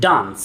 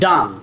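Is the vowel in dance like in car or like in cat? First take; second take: car; car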